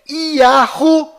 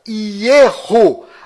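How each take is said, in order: First: A soft h sound comes before the last vowel. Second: A rough r sound comes before the last vowel. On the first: "As mais usadas fora de Israel" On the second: "As mais usadas fora de Israel"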